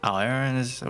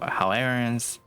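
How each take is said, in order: The two takes are said the same way.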